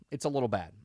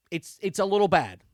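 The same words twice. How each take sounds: First: Said in the usual way. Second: Louder, mock-grave verdict; "It's a little bad" with the word "little" leaned on, louder; emphatic understatement. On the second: Real, not acted. Emphatic verdict, then repeated quietly.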